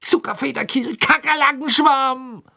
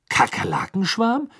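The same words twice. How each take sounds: First: Angry shout. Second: High, rising puzzled question; baffled. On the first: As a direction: yell it in exasperated rage. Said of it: "schrie er zornig auf einem Bein hüpfend". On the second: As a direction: echo it in bewildered disbelief. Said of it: "sagte er verdutzt". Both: A narrator's reading.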